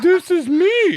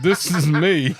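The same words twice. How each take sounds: First: It is said in a made-up voice. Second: It is said in his natural voice.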